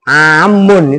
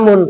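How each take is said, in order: First: The m sound is held long, doubled. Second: The m sound is short, single. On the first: It means general. The speaker calls it right. "Bacanya mimnya harus ditasdid" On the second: It means year. The speaker calls it wrong. "Kalau kalian baca amun tahun maknanya"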